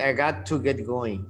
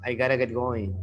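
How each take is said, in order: First: Got to is said fully as two words. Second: Got to is reduced and run together quickly. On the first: The speaker calls it wrong. "You don't say" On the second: The speaker calls it right. "It's fast"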